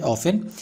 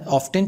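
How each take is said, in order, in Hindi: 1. बीच में t की आवाज़ छोड़ दी जाती है। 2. बीच में t की आवाज़ बोली जाती है। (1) "इसका दोनों उच्चारण सही होता है" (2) "इसका दोनों उच्चारण सही होता है"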